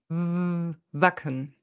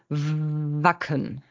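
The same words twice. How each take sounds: First: The first sound is made with both lips. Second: The first sound uses teeth and lower lip. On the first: The speaker calls it wrong. "das wäre kein Laut in der deutschen Sprache" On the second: The speaker calls it right. "bilden wir ja mit den Schneidezähnen und der unteren Lippe"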